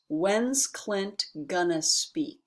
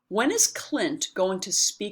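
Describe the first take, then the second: First: The words are squeezed into 'when's' and 'gonna'. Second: 'When is' and 'going to' are said in full.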